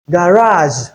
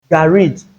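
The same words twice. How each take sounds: First: Garage as ga-RAAZH, long A; first variant of garage. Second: Garage as GA-ridge; second variant of garage. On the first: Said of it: "it has two pronunciations". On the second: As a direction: end garage on "idge", short vowel. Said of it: "or you can call it". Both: Shown as a demonstration.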